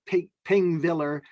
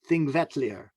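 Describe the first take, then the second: First: The word starts with a p sound. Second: The word starts with a th sound. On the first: The speaker calls it wrong. "It looks like Pingviller" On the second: The speaker calls it right. "but it's pronounced Thingvellir"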